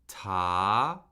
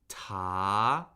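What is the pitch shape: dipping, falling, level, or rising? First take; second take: rising; rising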